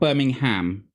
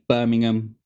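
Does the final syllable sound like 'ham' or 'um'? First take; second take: ham; um. First: The final syllable is a full 'ham' sound. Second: The final syllable is a weak 'um' sound. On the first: The speaker calls it wrong. "It's not Birmingham" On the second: The speaker calls it right. "I'm from Birmingham, and I say Birmingham"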